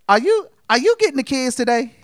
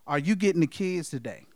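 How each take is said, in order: First: It is said in a put-on woman's voice. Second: It is said in his normal voice.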